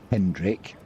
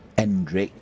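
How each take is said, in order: First: The name begins with an H sound. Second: The name begins with a vowel sound. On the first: The speaker calls it wrong. "not Hendrick" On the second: The speaker calls it right. "That's not slack pronunciation. It is Endrick"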